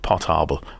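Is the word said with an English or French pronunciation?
French. It is said with a French pronunciation.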